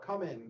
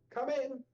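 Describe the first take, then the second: First: It is said in a low, somber tone. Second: It is said in a bright, cheerful tone. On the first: The speaker calls it right. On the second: The speaker calls it wrong.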